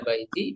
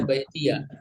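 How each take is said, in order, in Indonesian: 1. Kata itu diakhiri dengan vokal i biasa. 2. Kata itu diakhiri dengan suku kata ya yang ditambahkan. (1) "bisa baiti" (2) "bisa baitia"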